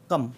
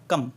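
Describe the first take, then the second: No difference in how they are said.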